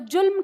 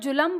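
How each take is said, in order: First: The l joins the m with no vowel. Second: The l is followed by a full vowel. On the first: The speaker calls it right. "तो जुल्म कहेंगे" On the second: The speaker calls it wrong. "ल का उच्चारण पूरा होगा"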